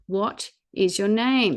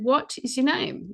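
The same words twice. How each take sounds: First: It is said slowly. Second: It is said at a normal speed.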